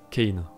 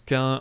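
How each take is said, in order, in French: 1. Le nom se prononce à l'anglaise. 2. Le nom se prononce à la française. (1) "la prononciation anglaise" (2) "Ce nom se prononce Cain en français"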